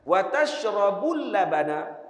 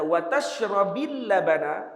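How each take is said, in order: First: The verb ends with a u vowel. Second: The verb ends with an i vowel. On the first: Do not eat fish, but do drink milk. "Waw tu waw istinaf" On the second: Both eating fish and drinking milk are forbidden. "maknanya dua-dua dilarang"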